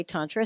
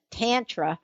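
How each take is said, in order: First: Said in the usual way. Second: Tantra said lightly in Linda's accent. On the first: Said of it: "For many of you say". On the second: Shown as a demonstration. Host shows listeners another way to say Tantra, Linda's accent. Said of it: "we will say it with Linda's accent".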